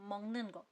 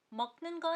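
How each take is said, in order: First: 먹는 거 as mong-neun geo, softer; correct assimilated reading. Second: 먹는 거 with a hard k, said higher; wrong unassimilated reading. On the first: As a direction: say 먹는 거 with ng, not k. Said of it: "तो आप बोलोगे". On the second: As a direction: read 먹는 거 letter by letter, stopping on k. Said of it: "नहीं". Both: Shown as a demonstration.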